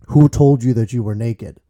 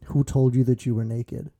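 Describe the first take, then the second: First: It sounds angry and condemning. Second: It sounds sad and heartbroken.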